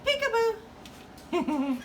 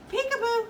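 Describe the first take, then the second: First: Slow drawn-out high peekaboo. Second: High bright peekaboo. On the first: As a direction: stretch it out teasingly. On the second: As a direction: pop out with peekaboo. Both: Real, not acted. Peekaboo with bird.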